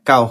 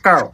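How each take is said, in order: First: The word is said in a plain local accent. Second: The word is said in an exaggerated English accent. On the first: "local ভাষায় কাউ হয়" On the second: "আইএলসের ভাষায় যেটা হয় এটা হইব কাউ"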